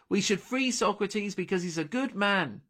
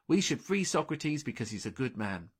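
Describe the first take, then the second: First: It is spoken loudly and clearly, projected. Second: It is spoken softly at low volume. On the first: The speaker calls it right. "Delphi said, loudly and clearly" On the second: The speaker calls it wrong. "she said quietly"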